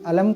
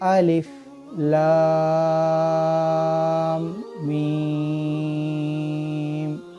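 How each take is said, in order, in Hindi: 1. अक्षर एक साथ मिलाकर एक शब्द की तरह पढ़े जाते हैं। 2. हर अक्षर अलग-अलग, एक के बाद एक, बोला जाता है। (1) "इसको अलम नहीं, अलम करके नहीं पढ़ना है" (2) "अलग अलग से पढ़ना है। जैसे अलिफ लाम मीम, इस तरीके से।"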